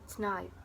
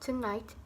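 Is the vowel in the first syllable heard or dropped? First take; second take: dropped; heard. First: The first syllable's vowel is dropped entirely. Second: The first syllable keeps its weak vowel.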